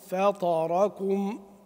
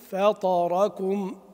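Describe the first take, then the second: No difference in how they are said.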